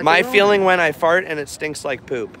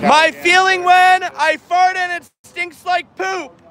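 First: It is said at normal speaking volume. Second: It is screamed loudly.

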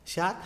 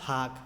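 First: The word begins with an 'sh' sound. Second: The word begins with an 'h' sound.

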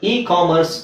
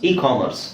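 The two takes are said the same way.

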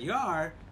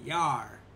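First: The two words are said separately and fully. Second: The two words are blended into one syllable. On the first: "Instead of saying, you are" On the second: "You just blend it together"

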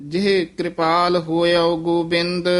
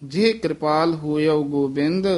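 No difference in how they are said.

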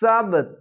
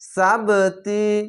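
First: The word ends on a stopped consonant. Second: The word ends on a short vowel. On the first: The reader pauses at the end of the verse. "এখানে তো আছে থামা ভালো" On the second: The reader joins it to the next words. "এখানে মিলিয়ে পড়তে পারেন, এরকম হবে সাবতি"

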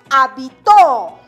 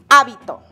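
First: The stress is on the third syllable. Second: The stress is on the first syllable. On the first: "La mayor fuerza de voz recae en la última sílaba" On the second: "Está la mayor fuerza de voz en la antepenúltima sílaba"

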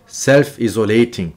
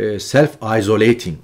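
First: It starts with a Turkish-like 'izo' sound. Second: It starts with an English 'eye-so' sound. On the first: The speaker calls it wrong. "Self-isolating dedim. ... izolasyon e, Türkçeleşmiş bir kelime olduğu için belki de dilim öyle kaydı" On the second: The speaker calls it right. "self-isolating olacaktı"

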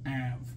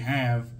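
First: The word begins without any h sound. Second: The word begins with an h sound. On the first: "he leaves the H off the have" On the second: "instead of saying, let's see what we have"

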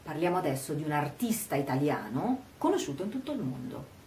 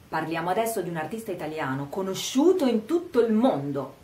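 First: Emphasis falls on 'artista italiano'; the rest is quicker. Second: Emphasis falls on 'conosciuto in tutto il mondo'. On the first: The subject is an Italian artist. "mettere l'accento sul fatto che questo artista sia un artista italiano" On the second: The artist is famous worldwide. "enfatizziamo il fatto che sia conosciuto in tutto il mondo"

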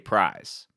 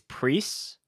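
First: The vowel is 'eye', ending in a z sound. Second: The vowel is 'ee', ending in an s sound. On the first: The speaker calls it wrong. "most people say prize" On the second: The speaker calls it right. "it's Priest without the T"

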